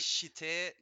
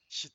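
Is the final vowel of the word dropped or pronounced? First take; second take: pronounced; dropped. First: The final vowel is fully pronounced. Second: The final vowel is dropped. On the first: "they don't say shite usually" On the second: "they like shit, and then they go exactly into the next one"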